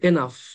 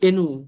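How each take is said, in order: First: The word ends with an f sound. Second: The word ends with a vowel sound. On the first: The speaker calls it right. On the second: The speaker calls it wrong.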